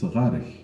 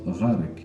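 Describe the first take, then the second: First: The word ends with a soft ch sound. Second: The word ends with a hard k sound. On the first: The speaker calls it right. "the K at the end of غارك is pronounced غارich" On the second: The speaker calls it wrong. "It's not غارك"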